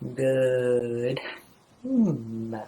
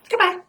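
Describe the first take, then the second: First: It is said slowly. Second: It is said fast.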